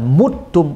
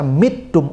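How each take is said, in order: First: The first vowel is a u sound. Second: The first vowel is an i sound. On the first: An honourable, pleasant death of believers. "muttum untuk orang-orang beriman" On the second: A lowly, disgraceful death of unbelievers. "Itu disebut kasrah. Makanya dibaca mittum untuk orang kafir"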